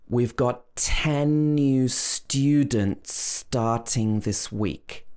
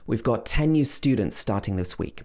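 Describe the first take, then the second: First: The sentence is spoken slowly. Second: The sentence is spoken faster. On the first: "first slow" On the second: "then faster"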